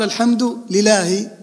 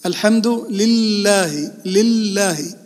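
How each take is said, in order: First: لله misread as li-lahi with one short L; slow الحمد لله, dropping the doubled L in لله; missing shadda. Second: لله with a long, held double L; slow الحمد لله, leaning hard on the L of لله; doubled lam. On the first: Teacher testing students with a faulty recitation, single L in لله. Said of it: "لأنك لم تشدد لفظ الجلالة". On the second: Teacher showing students the shadda, doubled L in لله. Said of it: "فيها شدة، فلفظ الجلالة فيها شدة". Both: Shown as a demonstration.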